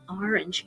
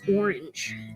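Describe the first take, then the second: First: It is said with a Philadelphia pronunciation. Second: It is said with a standard pronunciation. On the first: The speaker calls it wrong. "I say that wrong because I'm from Philadelphia" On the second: The speaker calls it right. "it's hard for me to do that"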